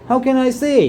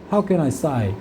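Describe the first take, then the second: First: The last word has an 'ay' vowel. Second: The last word has an 'eye' vowel. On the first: This is the usual way it is pronounced. "이거 우리 어떻게 발음하지? 이거 How can I say? 이렇게 하지" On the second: This is how it is pronounced in Australia. "걔네들 뭐라는 줄 알아? ... Sigh 이렇게 발음해버려"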